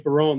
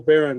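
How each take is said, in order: First: The name does not sound like the word baron. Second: The name sounds just like the word baron. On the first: This is how it is said east of the Mississippi. "a lot of people say Barone. That's how they pronounce it uh, east of the Mississippi River" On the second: This is how the family says it in the west. "like Red Baron Pizza"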